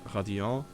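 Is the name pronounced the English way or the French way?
French. The name is pronounced the French way. "if I would pronounce it French, it is uh"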